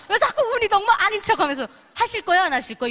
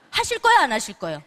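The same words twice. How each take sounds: First: Much higher, loud scolding, 자꾸 punched and falling; high, loud scolding "왜 자꾸 은희동무 아닌 척하면서 하실 거예요, 안 하실 거예요?"; bullying demand. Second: Louder, fast demand for an answer, falling on 거예요; mildly loud, quick pressuring "하실 거예요, 안 하실 거예요?"; pushy question. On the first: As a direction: berate them into answering. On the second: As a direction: press them to choose. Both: Shown as a demonstration. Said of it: "이렇게 말하면 기분이 좋으세요".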